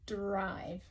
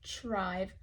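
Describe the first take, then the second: First: The word begins with a d sound. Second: The word begins with a t sound. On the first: The speaker calls it right. "this one is a d" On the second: The speaker calls it wrong. "not trive"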